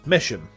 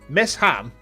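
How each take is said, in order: First: It is run together as one word. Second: It is said as two separate words. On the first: "Miss Ham becomes Misham" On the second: "Miss Ham becomes Misham"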